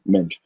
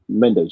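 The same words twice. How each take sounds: First: The name is said with a Portuguese pronunciation. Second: The name is said with an English pronunciation. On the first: "but Portuguese pronunciation" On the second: "you could say"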